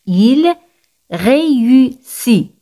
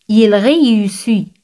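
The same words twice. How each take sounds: First: "Il ... réussit", very slow, each syllable separated. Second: Said in the usual way. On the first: Shown as a demonstration. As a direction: stretch out "réussit" sound by sound after a pause. Teacher breaks phrase into syllables.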